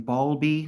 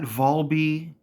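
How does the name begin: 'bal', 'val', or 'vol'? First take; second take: bal; vol. First: The name begins with a 'bal' sound. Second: The name begins with a 'vol' sound. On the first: "lately I've been hearing Balby, like with bees" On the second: "not Volby"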